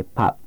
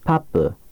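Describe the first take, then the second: First: Pap, with the final p closed and held, no release; unreleased final consonant. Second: Papu, with the final p released into a short "u"; released final consonant. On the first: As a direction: say pap, lips shut on the last p. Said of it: "This is the correct way". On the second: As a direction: say papu, letting the p burst open at the end. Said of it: "if you release 받침". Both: Shown as a demonstration.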